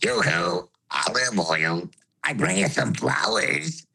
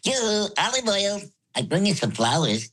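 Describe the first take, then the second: First: It mixes high and low voices together. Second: It is said in a high voice.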